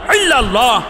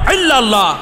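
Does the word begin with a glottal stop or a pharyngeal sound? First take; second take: pharyngeal; pharyngeal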